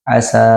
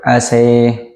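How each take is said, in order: First: The final vowel is a plain open a. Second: The final vowel is fronted toward an e. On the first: "dengan fathah biasa" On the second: "membacanya dengan imalah"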